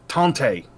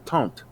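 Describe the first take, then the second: First: The word ends with an audible final vowel. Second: The word ends without a final vowel sound. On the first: This is how a Cajun speaker says it. "they make sure the e is known at the end of that" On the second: This is how a traditional French speaker says it. "somebody who speaks traditional French"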